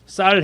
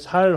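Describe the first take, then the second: First: The first consonant is a tense s sound. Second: The first consonant is a plain s sound. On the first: This is the pronunciation the guards demanded. The speaker calls it right. "쌀 해봐 그러죠" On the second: The speaker cannot produce the demanded sound and is exposed. The speaker calls it wrong. "이 발음을 못 하는 거예요"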